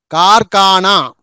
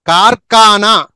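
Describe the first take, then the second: No difference in how they are said.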